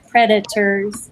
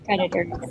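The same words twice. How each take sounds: First: The t is pronounced as a crisp t sound. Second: The t is softened so it sounds like d. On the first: "if you really say it right" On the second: "but predators"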